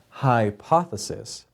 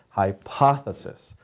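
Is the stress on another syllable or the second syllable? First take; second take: another syllable; second syllable. First: The stress falls on a syllable other than the second. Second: The stress falls on the second syllable, poth. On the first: The speaker calls it wrong. "Not hypothesis" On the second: The speaker calls it right. "it's the second one, poth"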